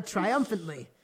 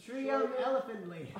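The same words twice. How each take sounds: First: Said in the usual way. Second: Triumphantly said very slowly and stumbling; mangled pronunciation. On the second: Shown as a demonstration. Reader retrying the word she mispronounced. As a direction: drag out Triumphantly syllable by syllable, struggling. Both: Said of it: "Even try to pronounce that".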